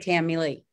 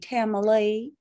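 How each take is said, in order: First: The name is said with a Californian accent. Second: The name is said with a Southern accent. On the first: "If you're from California, say Tamilee" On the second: "if you're from the South, you would say Tamilee"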